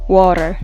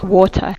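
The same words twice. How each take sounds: First: The final r is clearly pronounced. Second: The final r is dropped, British style. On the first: "not water" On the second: "in British English, you don't need to pronunciate R sound like R, but R like water"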